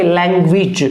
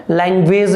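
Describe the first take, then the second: First: लैंग्वेज as "lang-gwij"; short i, j ending on लैंग्वेज; corrected pronunciation. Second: लैंग्वेज as "langvez"; long e, z ending on लैंग्वेज; wrong pronunciation. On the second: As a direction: demonstrate the mistaken "lang-VAYZ" for लैंग्वेज. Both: Shown as a demonstration. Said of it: "लैंग्वेज नहीं रखोगे".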